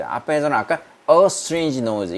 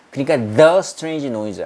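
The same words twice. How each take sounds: First: "a" hit and held before strange noise; stress on a. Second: "the" hit and held before strange noise; stress on the. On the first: Teacher contrasting articles, stressing "a". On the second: Teacher contrasting articles, stressing "the". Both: Shown as a demonstration. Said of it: "이거 구별할 수 있겠죠".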